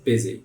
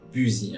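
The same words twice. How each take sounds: First: The first vowel sounds like an 'i'. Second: The first vowel sounds like a French 'u'. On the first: The speaker calls it right. "On veut bien faire comme si c'est un I" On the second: The speaker calls it wrong. "le U, on ne veut pas le prononcer busy"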